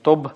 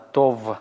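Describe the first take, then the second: First: The word ends with a stopped b sound. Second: The word ends with a fricative v sound. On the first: The speaker calls it wrong. "поэтому не смычно произносится не «тоб»" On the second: The speaker calls it right. "а «тов» щелевой"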